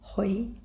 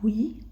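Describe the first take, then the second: First: The vowel is said like oi. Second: The vowel is said as a plain ui. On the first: The speaker calls it right. "tapi hoi" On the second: The speaker calls it wrong. "bacanya bukan hui"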